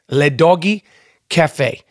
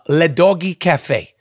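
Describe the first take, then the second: First: It is said with a French accent. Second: It is said in his ordinary accent.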